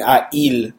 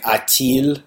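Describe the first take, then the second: First: "a-il" with no T between the vowels; French "a-il", A running straight into il; vowels left clashing. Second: "a-t-il" with a linking T between the vowels; French "a-t-il", T sounded before il; filler T added. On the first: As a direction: say "a-il" as two bare vowels in a row. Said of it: "those two vowel sounds sound ugly". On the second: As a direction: say "a-t-il" slowly, T bridging A and il. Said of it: "they'll add, uh, like, filler letters". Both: Shown as a demonstration.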